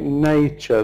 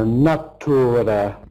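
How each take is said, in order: First: The second syllable is reduced to a short 'ch'. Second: The second syllable is fully pronounced, like 'tura'. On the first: The speaker calls it right. "The second syllable is just really ch" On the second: The speaker calls it wrong. "because they want to pronounce every letter of this word"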